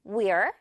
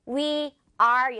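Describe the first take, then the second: First: "we're" in one quick syllable; quick contraction. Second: "We are" as two separate, laboured words; over-careful full form. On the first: Teacher shows learners the faster way, contracted. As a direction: squeeze we and are into a short "we're". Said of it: "이렇게 빠르게요". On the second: Teacher shows learners what to avoid, over-careful. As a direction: sound out "We" and "are" each in full. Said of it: "열심히 하지 않고". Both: Shown as a demonstration.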